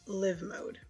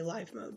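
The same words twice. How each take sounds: First: Live is said with a short i, like living. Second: Live is said with a long i, like alive. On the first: "because now they're living" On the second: "I hear a lot of people say"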